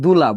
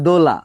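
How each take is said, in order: First: The first vowel is pronounced as a u sound. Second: The first vowel is pronounced as an o sound. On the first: This is the speaker's regional pronunciation. "বলছিলাম হচ্ছে দুলা" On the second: This is the name's actual pronunciation. "নাম হচ্ছে দোলা"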